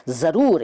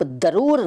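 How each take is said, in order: First: Said in the usual way. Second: दरूर, opening on d instead of z. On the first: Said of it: "इसको आप दरूर नहीं कहते". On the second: Shown as a demonstration. Teacher showing what is not said, दरूर with d for z. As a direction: start दरूर with a d. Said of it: "नहीं कहते".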